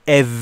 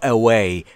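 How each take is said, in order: First: It is said with a V sound. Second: It is said with a rounded-lip W sound. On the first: The speaker calls it wrong. "away یه موقعی نگید، اون ویه" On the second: The speaker calls it right.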